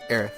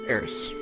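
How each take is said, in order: First: The name ends with a lisped th sound. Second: The name ends with a plain s sound. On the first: The speaker calls it wrong. "I don't want to sound like I have a lisp or sound like Sylvester the Cat" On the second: The speaker calls it right. "So we're going to go with Eris"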